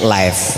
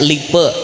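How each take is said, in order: First: It is read English-style, ending in a consonant. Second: It is read as spelled, ending in a vowel. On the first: This is how it is actually read. "bacaannya live" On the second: This is how the spelling looks. "Tulisannya lipe"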